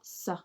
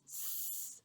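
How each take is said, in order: First: A short vowel is added after the consonant. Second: The consonant is said alone, with no vowel. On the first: The speaker calls it wrong. "not S" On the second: The speaker calls it right. "it's S"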